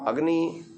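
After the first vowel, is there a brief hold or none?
none. The first syllable flows straight on without a catch. The speaker calls it wrong.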